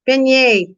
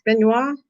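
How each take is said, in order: First: "Beignet" ending in yay; corrected pronunciation. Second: "beignois" ending in a questioning wah; mispronounced. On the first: Streamer finds the French donut name, corrected pronunciation. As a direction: land on "Beignet", ben-YAY, higher pitched. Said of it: "That's what it is". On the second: Streamer unsure what the donuts are called, mispronounced. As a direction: try "beignois" with wah for yay, rising like a question. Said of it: "can't remember to say beignet". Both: Real, not acted.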